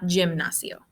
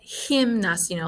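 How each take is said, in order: First: The first sound is not an H sound. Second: The first sound is an H sound. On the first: The speaker calls it wrong. "not gimnasio" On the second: The speaker calls it right. "like with an H sound"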